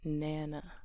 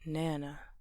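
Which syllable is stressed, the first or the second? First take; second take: first; first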